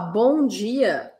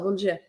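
First: Both words are clearly articulated. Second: It is fast, with mostly only dia heard.

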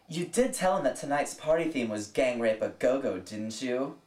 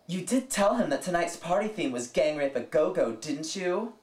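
First: The line sounds fairly mild and restrained. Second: The line sounds snotty and pissed off.

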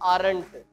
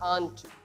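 First: The word is said as two syllables. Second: The word is said as one syllable. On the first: The speaker calls it wrong. "Not आरंट" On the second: The speaker calls it right. "Are not को कॉन्ट्रैक्टिव form में हम बोल सकते हैं आंट"

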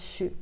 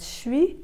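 First: The word is reduced to a short 'shu' sound. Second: The word keeps its vowel glide, like 'swee'. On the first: This is how it is said in Quebec. "au Canada et au Québec ça va être chu" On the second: This is how it is said in Europe. "en Europe ça va être suis"

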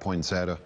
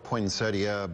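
First: A Southern drawl shortens the ending of the word. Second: Every syllable is said, including the final -ia. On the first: "my North Carolina drawl comes out, and it comes out poinsettia" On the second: "It's spelled with IA at the end, and it's spelled poinsettia"

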